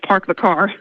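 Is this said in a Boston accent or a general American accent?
general American. It is spoken in a general American accent. "instead of"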